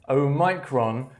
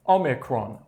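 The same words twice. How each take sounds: First: It uses a rarer, less common pronunciation. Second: It uses the usual, most common pronunciation. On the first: The speaker calls it wrong. "in the U K, you may hear Omicron, Omicron, which to me does sound a bit strange" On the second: The speaker calls it right. "The most common pronunciation for this word is Omicron"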